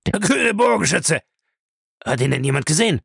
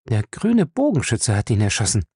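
First: High-pitched, agitated outburst; shocked exclamation. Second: Said in the usual way. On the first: A narrator's reading. Bellamy reacts to news of the killing, shocked. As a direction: cry it out, then press for a witness. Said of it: "rief er".

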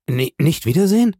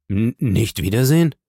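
First: Stockend und deutlich höher, steigende Frage; bestürztes Echo. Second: Leicht stotternd, am Ende steigend; ungläubig nachfragen, kaum höher; stockender Ausruf. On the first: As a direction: entsetzt nachfragen, Frauenstimme. Julie weint, wiederholt die Frage. (hohes ungläubiges Stammeln) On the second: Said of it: "rief Emmanuel". (betroffenes Stammeln in normaler Lage) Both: A narrator's reading.

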